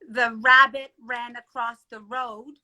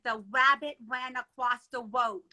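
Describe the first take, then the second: First: The sounds are pronounced in the ordinary, standard way. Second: Some sounds are replaced, like a young child's speech. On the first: "you may say" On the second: "I would have said ... I spoke differently"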